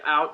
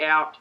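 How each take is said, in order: First: The word is said in an American accent. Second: The word is said in an Australian accent. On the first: "Americans say out" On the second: "we say out"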